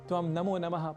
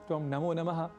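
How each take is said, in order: Both takes have the same delivery.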